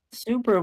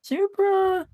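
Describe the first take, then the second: First: Said in the usual way. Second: Name shoots up high; accidental high voice. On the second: Real, not acted. Commentator calling a driver's name, voice accidentally high. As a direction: SUPRA pitched high by accident. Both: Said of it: "I do not know why my voice went that high".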